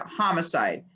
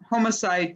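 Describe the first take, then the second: First: The first syllable has a short vowel, like hot. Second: The first syllable rhymes with home. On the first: This is the newer way of saying it. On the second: This is the older way of saying it.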